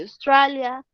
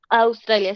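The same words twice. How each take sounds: First: "Australia" said with an English accent; English pronunciation. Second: Said in the usual way. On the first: Shown as a demonstration. Teacher giving students the English country name, "Australia" in English pronunciation. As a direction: say "Australia" as an English word, not Spanish. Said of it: "se dice Australia". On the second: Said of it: "en inglés".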